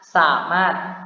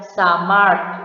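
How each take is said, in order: First: No r sound comes before the final t. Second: An r sound comes before the final t. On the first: The speaker calls it right. "melainkan hanya samat" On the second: The speaker calls it wrong. "tidak dibaca samart dengan bunyi R lalu bunyi T"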